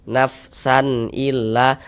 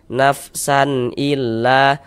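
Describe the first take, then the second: No difference in how they are said.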